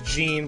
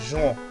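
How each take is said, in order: First: The name is said with English pronunciation. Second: The name is said with French pronunciation. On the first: "I know it says Jean" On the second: "French pronunciations like Jean"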